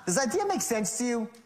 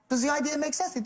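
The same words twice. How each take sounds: First: The tone sounds condescending and pushy. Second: The tone sounds relaxed and casually curious. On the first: The listener is treated as foolish. The speaker calls it wrong. "Not, ... moron?" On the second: The asker is simply curious, with nothing at stake. The speaker calls it right. "No big deal. Just really, really just curious to know"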